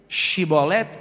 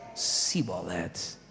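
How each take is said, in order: First: The word begins with a 'sh' sound. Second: The word begins with an 's' sound. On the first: The speaker calls it right. "Shibolete versus Sibolete" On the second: The speaker calls it wrong. "não foram capazes de pronunciar a palavra certa"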